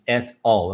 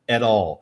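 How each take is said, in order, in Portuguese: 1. As duas palavras são ditas separadamente. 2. As duas palavras são ligadas entre si. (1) "Eu não falei assim" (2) "eu falei at all"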